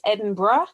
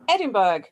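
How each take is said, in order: First: The name is said the British way. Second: The name is said the local American way. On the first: This is how the city is named in the UK. "in the U K it's Edinburgh" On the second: This is how locals name the manor. "they pronounce the manor Edinburgh"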